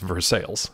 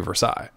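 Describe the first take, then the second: First: It is said the local Pittsburgh way. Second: It is said the French way.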